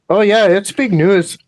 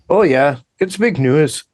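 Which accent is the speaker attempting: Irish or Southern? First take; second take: Irish; Southern. First: It is spoken in an attempted Irish accent. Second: It is spoken in an attempted Southern accent. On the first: "I can't do Irish" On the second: "It's a southern accent. I'm not very good at southern"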